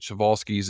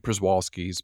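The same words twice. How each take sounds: First: The name is said with a Polish-style pronunciation. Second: The name is said with an English-style pronunciation. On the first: "Przewalski's is the proper Polish pronunciation" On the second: "Some say Przewalski's"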